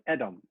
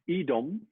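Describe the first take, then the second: First: The first vowel is a short E. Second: The first vowel is not a short E. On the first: The speaker calls it right. "because it's a short E" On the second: The speaker calls it wrong. "So not Edom"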